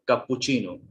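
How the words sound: It is said with an Italian-style pronunciation. The speaker calls it right. "the correct pronunciation is cappuccino"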